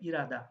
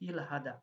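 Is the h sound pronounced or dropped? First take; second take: dropped; pronounced. First: The h sound is dropped, giving irada. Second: The h sound is clearly pronounced. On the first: The speaker calls it right. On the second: The speaker calls it wrong.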